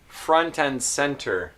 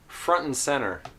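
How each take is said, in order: First: It is said in a careful, textbook way. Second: It is said in a relaxed, natural way. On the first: "here's how maybe you know these words" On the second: "This is how I would usually pronounce these words"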